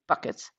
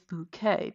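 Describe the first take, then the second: First: It is said like the word bucket. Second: It is said like the word bouquet. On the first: This is the reading people are tempted to use. The speaker calls it wrong. "even though we want to say Bucket" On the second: This is how the name owner wants it said. The speaker calls it right. "it is Bouquet"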